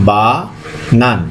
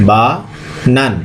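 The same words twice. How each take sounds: No difference in how they are said.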